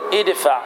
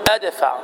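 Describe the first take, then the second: First: The first vowel is a short 'i' sound. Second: The first vowel is not an 'i' sound. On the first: The speaker calls it right. "كسرنا ألف الوصل، فنقول ادفع" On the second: The speaker calls it wrong. "ولا تقل أدفع، هذا خطأ"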